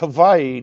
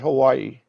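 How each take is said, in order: First: The middle consonant sounds like a V. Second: The middle consonant sounds like a W. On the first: The speaker calls it right. "The W is actually pronounced like a V" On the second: The speaker calls it wrong. "not Hawaii"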